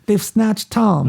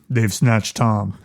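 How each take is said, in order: First: The voice stays at its normal level. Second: The voice drops lower and quieter. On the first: The speaker calls it wrong. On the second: The speaker calls it right.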